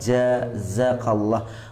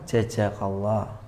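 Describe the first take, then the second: First: The first consonant is j, the second is z. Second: Both of the first two consonants are j. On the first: The speaker calls it right. "Kan dua huruf yang berbeda kan" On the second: The speaker calls it wrong. "dua-duanya jim"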